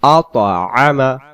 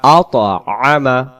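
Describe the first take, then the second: No difference in how they are said.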